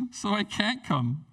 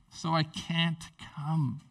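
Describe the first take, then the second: First: Dismissive excuse. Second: Slow dismissive excuse. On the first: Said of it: "that's super rude". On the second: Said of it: "that would be rude". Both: Retold or imitated.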